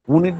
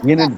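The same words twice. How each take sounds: First: The word starts with a plain oo vowel. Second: The word starts with a y sound. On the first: The speaker calls it wrong. "ইউনিট বলি না তো আমরা।" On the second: The speaker calls it right. "ইউনিট বলি তো। হ্যাঁ, ওয়াই উচ্চারণ হয়।"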